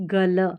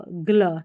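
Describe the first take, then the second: First: 'गल' with a full vowel after g; unblended mispronunciation. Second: 'ग्ल' with a half g straight into l; blended pronunciation. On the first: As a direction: keep g and l apart in 'गल'. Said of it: "न कि गल". ('गल' में पूरा ग बोलें) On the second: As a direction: run g into l, 'ग्ल'. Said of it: "आधा ग और पूरा ल". ('ग्ल' में आधा ग, पूरा ल बोलें) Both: Shown as a demonstration.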